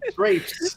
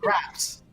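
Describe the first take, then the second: First: The vowel is the long 'ay' sound. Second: The vowel is a short 'a' sound. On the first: The speaker calls it right. "It's always been pronounced grapes" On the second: The speaker calls it wrong. "weirdly she was pronouncing graps"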